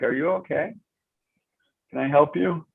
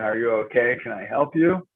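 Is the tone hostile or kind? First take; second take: kind; hostile. First: It is said in a warm, kind tone. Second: It is said in a snide, hostile tone.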